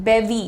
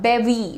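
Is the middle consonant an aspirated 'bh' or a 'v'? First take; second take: v; v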